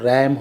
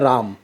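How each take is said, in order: First: The vowel is a short flat 'a' sound. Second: The vowel is a long open 'ah' sound. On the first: It means to crash into something. "तब इसका जो उच्चारण है वो रैम होता है" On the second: It is a person's name. "उसको तो हम उच्चारण करते हैं राम"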